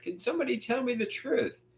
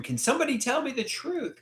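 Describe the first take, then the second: First: Mild mock scream. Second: A pleading cry pitched high but held back; mild mock scream. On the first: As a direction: repeat the cry high, ending on a lift. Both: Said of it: "I wanna scream".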